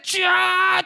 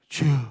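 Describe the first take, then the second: First: It is cried out loudly and fervently. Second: It is mumbled quietly with the mouth barely open.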